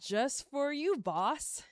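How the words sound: The tone sounds mocking and sarcastic. "And then sarcastic"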